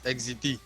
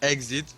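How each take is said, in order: First: The word ends with an added ee sound. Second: The word ends plainly on the t sound. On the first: The speaker calls it right. "it's exit" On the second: The speaker calls it wrong. "it's not exit"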